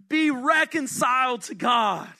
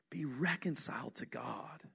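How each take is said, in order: First: "Be reconciled to God" pleaded out loud, with weight on "Be"; urgent appeal. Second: "Be reconciled to God" said much softer and lower, almost confiding; hushed appeal. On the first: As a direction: press the plea with "Be" leaned on. Proclaiming the appeal. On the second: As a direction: drop to an intimate hush on "Be reconciled to God". Hushed repeat of the solution. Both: Acted.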